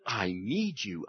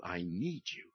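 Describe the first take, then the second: First: Tender. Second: Softer tender. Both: Shown as a demonstration.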